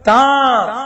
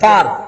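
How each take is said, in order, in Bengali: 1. স্বরধ্বনিটি অনুনাসিক এবং একটু দীর্ঘ করে উচ্চারিত। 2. স্বরধ্বনিটি সাধারণ ও হ্রস্ব, অনুনাসিক নয়। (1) "চন্দ্রবিন্দু দিয়ে একটু টেনে বলা, একটু নাকে বাজিয়ে বলা" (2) "তার তৃতীয় পুরুষ বোঝানোর জন্য"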